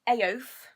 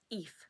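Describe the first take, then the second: First: The name is read out as it is spelled. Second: The name rhymes with 'wreath' without its first sound. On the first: "that's how I, I pronounce it" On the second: "you're meant to pronounce it like wreath without the R"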